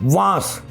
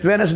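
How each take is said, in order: First: The name has one syllable, like 'Vance'. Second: The name has two syllables, like 'Venus'. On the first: The speaker calls it right. "उसका नाम है वांस" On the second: The speaker calls it wrong. "बहुत सारे पाकिस्तानी के district कह रहे हैं जी वेनस"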